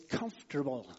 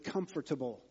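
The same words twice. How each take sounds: First: It is said with three syllables, like comfterble. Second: It is said with four full syllables, as spelled. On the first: The speaker calls it right. "no, it's comfortable" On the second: The speaker calls it wrong. "I pronounced it comfortable. That's how it's spelled"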